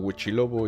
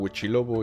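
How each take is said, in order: First: The name is said as short Spanish Huichilobo. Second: The same.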